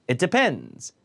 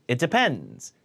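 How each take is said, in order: No difference in how they are said.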